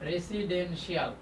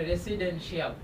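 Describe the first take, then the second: The two takes are said the same way.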